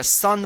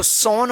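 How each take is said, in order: First: सन with a short 'uh' vowel; correct pronunciation. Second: सोन with a long 'oh' vowel; mistaken pronunciation. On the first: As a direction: say सन like English 'sun'. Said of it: "सन पढ़ा जाएगा". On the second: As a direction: say सोन as it is spelt, with o. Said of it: "मत पढ़िएगा". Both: Shown as a demonstration.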